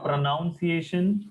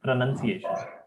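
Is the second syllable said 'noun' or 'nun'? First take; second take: noun; nun. First: The second syllable sounds like noun. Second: The second syllable sounds like nun. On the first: The speaker calls it wrong. "Not pronunciation" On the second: The speaker calls it right. "it is pronan, none"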